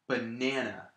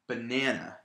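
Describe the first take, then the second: First: The stress is on the middle syllable. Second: The stress is on the middle syllable.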